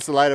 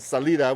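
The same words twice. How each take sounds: First: The word is said with English pronunciation. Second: The word is said with Spanish pronunciation. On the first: "the name Salida" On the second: "comes from the Spanish"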